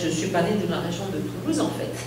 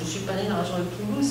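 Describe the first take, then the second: First: The pitch falls after Toulouse without a rise. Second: The pitch rises at the end of Toulouse. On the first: The phrase ends here, with en fait attached to it. The speaker calls it wrong. "et la voix manquerait en fait" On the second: The sentence continues past this phrase. The speaker calls it right. "la voix monte à la fin de Toulouse"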